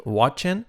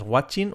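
First: WATCHING with a reduced ending, "wat-chen"; model pronunciation. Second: WATCHING with a clear I, "wat-cheen"; wrong pronunciation. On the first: Teacher giving learners the model, correct pronunciation. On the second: Teacher showing learners the mistake, wrong pronunciation. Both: Shown as a demonstration. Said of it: "No es watching".

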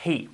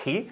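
First: "he" with a light English H; gentle, airy H on "he"; aspirated H. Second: "he" with a scraping Spanish jota; exaggerated Spanish H on "he"; wrong throaty H. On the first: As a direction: let "he" start on a soft puff of air. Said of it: "Sea he". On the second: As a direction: rasp the H in "he" at the back of the throat. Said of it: "que no sea". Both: Shown as a demonstration.

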